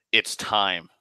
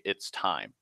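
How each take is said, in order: First: Said in the usual way. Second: Soft, low, distant "It's time."; disembodied voice. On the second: Retold or imitated. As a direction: lower and quieter, like a voice from nowhere. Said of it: "that disembodied voice say".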